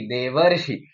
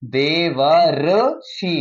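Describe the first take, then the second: First: Said in the usual way. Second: देवर्षि drawn out slowly, syllable by syllable, दे-व-र्षि; slow careful pronunciation. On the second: Shown as a demonstration. Teacher slowly sounds out देवर्षि for the class. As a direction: spell out देवर्षि slowly so each part is clear. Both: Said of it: "ये देखो ऊपर देवर्षि".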